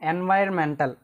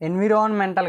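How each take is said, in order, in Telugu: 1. మధ్య అక్షరాన్ని 'vire' అని అంటారు. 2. మధ్య అక్షరాన్ని 'vi-ron' అని అంటారు. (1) "ఎన్వైర్మెంటల్ అంటారు" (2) "ఎన్విరాన్మెంటల్ కాదు"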